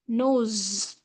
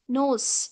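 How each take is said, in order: First: The word ends with a buzzing z sound. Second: The word ends with a hissing s sound. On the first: The speaker calls it right. "the right pronunciation is nose" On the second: The speaker calls it wrong. "It's not sa. Nose. It's wrong"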